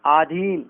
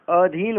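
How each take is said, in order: First: आधीन with a long opening "aa"; wrong long vowel. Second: अधीन with a short opening "a"; correct short vowel. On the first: Teacher showing the error, आधीन with long first aa. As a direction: open आधीन on "aa". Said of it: "गलत है". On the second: Teacher correcting the error, अधीन with short first a. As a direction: open अधीन on a brief "uh". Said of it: "अधीन होता है". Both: Shown as a demonstration.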